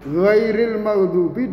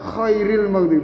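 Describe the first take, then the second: First: The first word starts with a voiced, gargled gh. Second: The first word starts with a voiceless, rasping kh. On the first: Other than those who earned anger. The speaker calls it right. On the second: The best of those who earned anger. The speaker calls it wrong.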